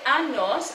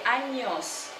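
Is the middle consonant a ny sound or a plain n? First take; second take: plain n; ny sound. First: The middle consonant is a plain n sound. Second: The middle consonant is a ny sound. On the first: The speaker calls it wrong. "So I don't say años" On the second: The speaker calls it right. "I say años"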